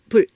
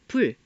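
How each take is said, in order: First: The final l sound is cut short. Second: The final l sound is held long. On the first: It is pronounced as an entering tone. The speaker calls it right. "입성으로 짧게 끝을 맺어라" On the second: It is not pronounced as an entering tone. The speaker calls it wrong. "여린 히읗이 없다면 리을을 길게 발음하겠죠"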